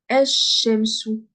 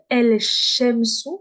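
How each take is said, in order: First: The L merges into a doubled sh sound. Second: The L sound is pronounced before shamsu. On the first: The speaker calls it right. "Le lem, je le prononce pas. Je vais dire el-shamsu" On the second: The speaker calls it wrong. "je vais pas dire el-shamsu. Je ne dis plus el"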